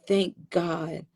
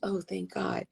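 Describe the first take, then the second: First: It is said slowly and earnestly. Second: It is said quickly and casually.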